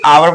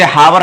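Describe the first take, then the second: First: The word begins with a vowel, h silent. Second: The word begins with an audible h sound. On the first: The speaker calls it right. "आवर पढ़ते हैं, ये तो यहाँ पे silent रहती है" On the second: The speaker calls it wrong. "इसे हावर नहीं"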